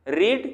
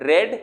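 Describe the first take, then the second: First: The vowel is long, like 'reed'. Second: The vowel is short, like 'red'. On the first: The speaker calls it wrong. "रीड नहीं" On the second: The speaker calls it right. "इसको रेड पढ़ेंगे"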